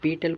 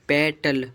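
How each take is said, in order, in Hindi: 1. पहला स्वर लंबी 'ee' ध्वनि है। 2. पहला स्वर छोटी 'e' ध्वनि है। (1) "पीटल कोई नहीं बोलेगा" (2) "क्या बोलेंगे? पेटल"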